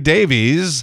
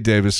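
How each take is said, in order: First: The name ends with an 'eez' sound. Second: The name ends with an 'iss' sound. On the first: The speaker calls it wrong. "apparently we've been mispronouncing his name all these years because it's spelled D-A-V-I-E-S and everybody says" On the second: The speaker calls it right. "So I say Davis because that's how he says it"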